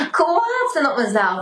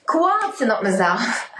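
First: Said again while half laughing, half crying; laugh-crying through the repeat. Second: Said in the usual way. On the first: Real, not acted.

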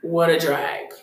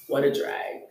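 First: Said in the usual way. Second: Sighing drag. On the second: Real, not acted.

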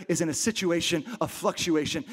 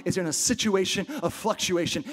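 The two takes are said the same way.

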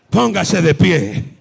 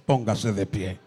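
First: Much louder, slowed command to stand. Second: Said in the usual way. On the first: Real, not acted. The preacher commanding the congregation to stand, louder. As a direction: call them to their feet.

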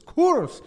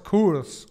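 First: "curse" disparado muy agudo y fuerte; tirá "curse" bien arriba, como un tono chino; imitando un tono chino. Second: Said in the usual way. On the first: Shown as a demonstration. ("curse" muy agudo y fuerte, imitando un tono) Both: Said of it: "Pero solo por el tono".

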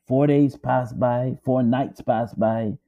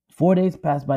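First: Four days passed by drawn out slowly, each word weighted; slow, heavy telling. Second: Said in the usual way. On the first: Shown as a demonstration. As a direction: let the days drag by slowly.

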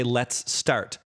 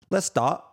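First: Said in the usual way. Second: Cockney "Let's start" with no T, pitched up; Cockney: swallow the T in "Let's"; Cockney "Let's start", higher, T dropped; Cockney accent. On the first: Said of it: "Or if they say". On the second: Shown as a demonstration. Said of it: "There's no T in the word".

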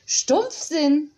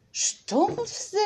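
First: Stumpfsinn said again slowly and relishing each sound; repeating the word. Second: A high, rising Stumpfsinn? savored with delight; delighted surprise. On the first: Frau Honig repeats the new word to remember it. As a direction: savor Stumpfsinn as if memorizing it. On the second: Frau Honig hears a word she loves: Stumpfsinn? rising high. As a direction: taste the word Stumpfsinn as a new treat. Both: A narrator's reading. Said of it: "wiederholte noch einmal".

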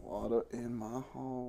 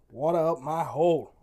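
First: Hammed-up drawled Southern twang; mock Southern accent. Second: Shouted slogan. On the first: Cohost repeating the promo code in a mock Southern accent. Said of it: "where that accent came from". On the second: Shown as a demonstration. Host shouting the promo code at listeners. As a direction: belt the promo code out loud.

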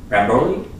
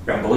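First: Ramboli ending in -lee, questioning rise; unsure pronunciation. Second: Rambolio with an extra final "oh", very soft; unsure pronunciation. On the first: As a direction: try out "Ramboli" as a softly asked guess. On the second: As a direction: quietly guess "Rambolio", ending in -lee-oh. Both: Real, not acted. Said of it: "don't know how you pronounce".

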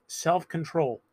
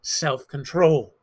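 First: Said in the usual way. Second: Slow, drawn-out self-control with a grudging sigh; preacher admitting with a grin that he's not keen on self-control; reluctant. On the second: Shown as a demonstration. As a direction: drag out self-control as if you'd rather skip it. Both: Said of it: "the one I'm not too interested in".

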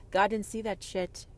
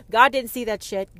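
First: Said in the usual way. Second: Louder declaration. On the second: Real, not acted. Ranting at the audience about God, louder. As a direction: punch out God, louder and firm. Repeated line, now louder.

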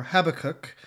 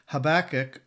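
First: Habakkuk stressed at the front, HAB-uh-kook; stress on first syllable. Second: Habakkuk stressed on the middle syllable, ha-BAK-uk; stress on second syllable. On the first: Podcaster gives the other pronunciation, Habakkuk stressed as HAB-uh-kook. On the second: Podcaster offers a prophet's name, Habakkuk stressed as ha-BAK-uk. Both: Shown as a demonstration. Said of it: "depends on how you place the emphasis".

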